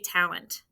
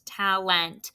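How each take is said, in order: First: The second vowel is a reduced schwa. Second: The second vowel is a full, clear e. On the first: The speaker calls it right. "We say talent" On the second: The speaker calls it wrong. "we don't really say"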